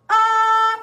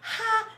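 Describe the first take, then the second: First: It starts cleanly from a closed throat. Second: It starts with an audible breathy h sound. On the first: The speaker calls it right. "it's ah, from that closed throat to an open throat" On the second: The speaker calls it wrong. "there's no H at the beginning. You don't exhale at the beginning"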